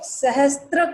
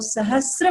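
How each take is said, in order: First: A t sound comes before the r. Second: No t sound comes before the r. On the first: The speaker calls it wrong. "कई लोग सहस्त्र का उच्चारण करते हैं" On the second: The speaker calls it right. "त्र की मात्रा नहीं है, वहां स के साथ रेफ लगा हुआ है"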